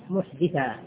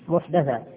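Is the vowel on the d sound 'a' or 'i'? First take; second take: i; a. First: The d is followed by an 'i' vowel. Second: The d is followed by an 'a' vowel. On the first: It refers to a person who commits a crime. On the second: It refers to an innovation in religion.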